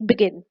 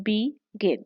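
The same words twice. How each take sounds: First: "begin" as one word, stressed on GIN. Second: "begin" broken apart as be, gin; split into syllables. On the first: Teacher giving an example word, "begin" stressed on GIN. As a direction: lean on the second syllable of "begin". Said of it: "इसमें जो syllable stress है that is gin". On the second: Teacher counting syllables for students, "begin" split be-gin. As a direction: pause between the two syllables of "begin". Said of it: "Two syllables". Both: Shown as a demonstration.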